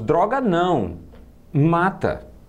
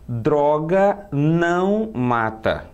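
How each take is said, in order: First: There is a pause right after não. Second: It runs on with no pause after não. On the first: Say no to drugs; they kill. "a entonação me obriga a colocar a vírgula depois do não" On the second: Drugs do not kill. "do jeito que eu li, fica parecendo uma apologia à droga"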